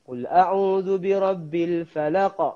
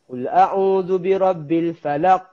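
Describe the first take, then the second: First: The final q is released with a light bounce. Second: The final q is held silent with no bounce. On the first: The speaker calls it right. "kita kena baca dia lantun" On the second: The speaker calls it wrong. "silent je"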